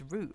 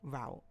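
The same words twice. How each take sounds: First: The word is said in a British accent. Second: The word is said in a non-British accent. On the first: "in a British accent" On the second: "but I say route"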